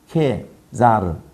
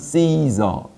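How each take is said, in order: First: The name begins with a hard K sound. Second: The name begins with a soft S sound. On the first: "C가 K로 발음되니까 케자르" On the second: "영어식으로 발음하면 Caesar"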